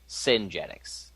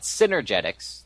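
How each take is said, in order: First: The middle 'er' syllable is dropped from the word. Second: All syllables are said, including the middle 'er'. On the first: The speaker calls it wrong. "she screwed up" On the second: The speaker calls it right. "like it's spelt and it's pronounced"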